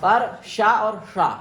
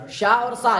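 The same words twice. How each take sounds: First: शा and शा slowly with distinct tongue positions; retroflex vs palatal sh. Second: शा and सा said clearly apart; sibilant contrast. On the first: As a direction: show the two शा slowly. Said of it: "तीनों शाइन में भी अंतर आना चाहिए". (श और ष का भेद) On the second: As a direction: contrast शा against सा. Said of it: "ये तो बिल्कुल अलग अलग है". (श और स का अंतर) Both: Shown as a demonstration.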